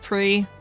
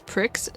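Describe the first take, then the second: First: The word ends on the vowel, no ks. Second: The word ends with a clear ks sound. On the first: "I've always pronounced it as pre" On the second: "You pronounce this pricks"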